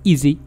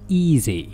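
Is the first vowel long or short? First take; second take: short; long. First: The first vowel is short. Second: The first vowel is drawn out long. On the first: The speaker calls it wrong. "لا نقول easy" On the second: The speaker calls it right. "فإنها تنطق طويلة قليلا ما"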